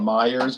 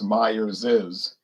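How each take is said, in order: First: The name ends without an extra 'iz' syllable. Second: The name ends with an extra 'iz' syllable. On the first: The speaker calls it wrong. "most people call it Myers" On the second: The speaker calls it right. "that's the proper pronunciation"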